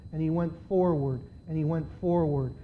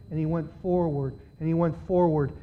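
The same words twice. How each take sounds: The two takes are said the same way.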